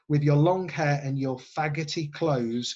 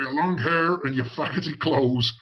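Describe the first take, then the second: First: It is said in the speaker's plain voice. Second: It is said in an American-Irish cop accent.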